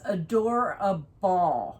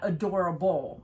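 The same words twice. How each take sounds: First: The word ends with a clear 'ball' sound. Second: The word ends with a reduced 'bull' sound. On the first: It is the brand name. The speaker calls it right. "And it is adorable, It's B A L L" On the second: It is the ordinary word. The speaker calls it wrong. "not adorable"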